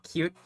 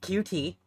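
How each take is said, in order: First: It is said as one word, like cute. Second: It is said as two separate letters. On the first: "I personally prefer cute" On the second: "however you want to pronounce it"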